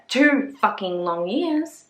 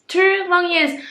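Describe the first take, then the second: First: Slow, stretched-out emphasis on each word; exasperated slow drawl; drawn-out complaint. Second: Exaggerated squeal of impatience; high exclaimed emphasis. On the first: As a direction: drag every word out for effect. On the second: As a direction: pop the words up in mock outrage. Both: Shown as a demonstration.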